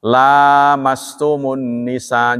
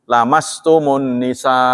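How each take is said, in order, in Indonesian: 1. Vokal pertama dibaca panjang. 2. Vokal pertama dibaca pendek. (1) "Tapi kan kita bacanya panjang" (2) "kalau dibacanya pendek berarti menyentuh"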